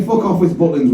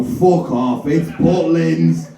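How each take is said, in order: First: Said in the usual way. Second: Slow, drawn out on "Butlins"; exasperated dismissal. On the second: Retold or imitated. Host wanting to dismiss every answer, drawn-out exasperation. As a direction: stretch it out, dismissing a daft guess. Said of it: "you wanted to go".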